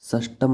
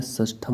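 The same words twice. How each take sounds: First: षष्टम with unaspirated t; hard t without breath in षष्टम; wrong form. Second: षष्ठम with aspirated th; correct form. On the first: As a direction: say षष्टम as "sas-tam". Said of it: "नहीं होता है". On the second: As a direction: say षष्ठम as "sas-tham". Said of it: "षष्ठम होता है". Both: Shown as a demonstration.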